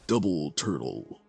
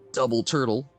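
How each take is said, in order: First: It is said in a booming announcer voice. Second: It is said in a normal speaking voice.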